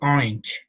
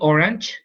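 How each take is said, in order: First: The vowel before the g is a short i. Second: The vowel before the g sounds like a. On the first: The speaker calls it right. "you say orange, right? So here the the short I" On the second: The speaker calls it wrong. "You don't say orange"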